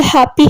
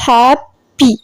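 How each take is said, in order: First: Said in the usual way. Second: Happy split in two, hap, pee; syllable by syllable. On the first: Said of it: "has two syllables". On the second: Shown as a demonstration. Teacher reading the two-syllable example, happy broken in halves. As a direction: pause in the middle of happy between hap and py. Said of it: "The word happy has two syllables".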